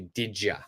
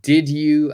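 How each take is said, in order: First: The word 'you' is reduced to 'ya'. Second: The word 'you' is said in full.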